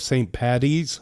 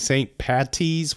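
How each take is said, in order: First: The middle consonant sounds like a soft D. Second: The middle consonant is a crisp hard T. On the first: The speaker calls it right. "with a D" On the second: The speaker calls it wrong. "with a hard T"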